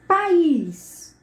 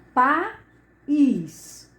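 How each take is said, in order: First: Said in the usual way. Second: "país" broken into pa, pause, ís; syllable by syllable. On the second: Shown as a demonstration. Teacher showing where to separate the hiatus, "país" split in two.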